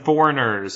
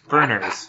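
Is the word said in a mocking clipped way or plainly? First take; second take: plainly; mocking clipped. First: The word is said plainly with all syllables. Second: The word is clipped to two syllables, mockingly. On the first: "As in foreigners" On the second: "I was saying it in an ignorant way"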